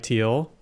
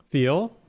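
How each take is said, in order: First: "Teal" starting with a plain T; hard T. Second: "Thiel" starting with a TH sound; soft TH. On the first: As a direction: say "Teal" like the colour. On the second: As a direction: say "Thiel" with th as in "thin", rising. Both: Real, not acted. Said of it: "look up how to pronounce it".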